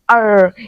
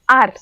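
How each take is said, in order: First: The R sound is drawn out and rolling. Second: The R sound stops short and stays level. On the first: This is how American speakers say it. "but in American accent they said it R R" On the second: This is how Indian speakers say it. "It just stay up in the middle"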